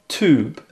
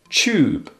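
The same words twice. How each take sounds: First: It is said in American English. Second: It is said in British English.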